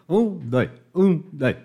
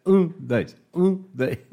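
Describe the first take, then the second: No difference in how they are said.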